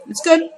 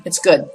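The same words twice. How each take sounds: First: High rising reassurance. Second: Said in the usual way. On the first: Real, not acted. After catching the spider.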